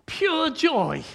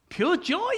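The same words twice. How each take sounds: First: Said in the usual way. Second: Pure joy? asked high, rising in disbelief; incredulous echo. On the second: Real, not acted. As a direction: question the words Pure joy as if they can't be right. Echoes phrase in disbelief.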